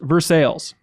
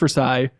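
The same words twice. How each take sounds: First: It uses the local Kentucky pronunciation. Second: It uses a common outsider pronunciation. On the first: The speaker calls it right. "It's pronounced Versailles" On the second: The speaker calls it wrong. "it's not pronounced Versailles"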